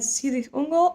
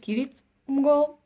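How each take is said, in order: First: The name begins with an S sound. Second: The name begins with a K sound. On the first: The speaker calls it wrong. "that I called always in my head" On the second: The speaker calls it right. "Apparently it's"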